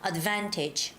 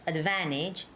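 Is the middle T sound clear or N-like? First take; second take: clear; N-like. First: The T in the middle is clearly pronounced. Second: The middle T is softened into an N-like sound. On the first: "Can you hear that T sound?" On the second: "the second way is much smoother"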